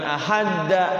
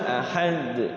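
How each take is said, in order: First: The final d is followed by a full vowel. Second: The final d is bounced with no vowel after it. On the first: The speaker calls it wrong. "Bukan ahadda" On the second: The speaker calls it right. "setelah sukun pantulkan"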